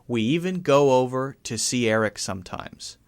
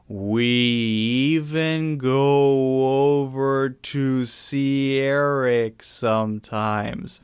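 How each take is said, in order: First: The sentence is said at a moderate pace. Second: The sentence is said very slowly. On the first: "I'm not saying that quickly" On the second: "I could say it very slowly. Very slow"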